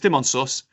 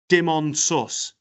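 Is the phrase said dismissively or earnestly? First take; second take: dismissively; earnestly. First: It is said casually and dismissively. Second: It is said earnestly and with intensity. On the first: The kiss was unimportant. "It's only a kiss" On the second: The kiss was the only thing that mattered. "Nothing but a kiss"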